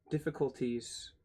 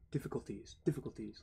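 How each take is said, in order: First: Said in the usual way. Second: "Difficulties" in a soft, bouncing gallop; galloping rhythm. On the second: Shown as a demonstration. Streamer testing the word's rhythm, galloping softly. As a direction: say "difficulties" lightly, like hoofbeats on horseback. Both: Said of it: "Like you're riding a horse".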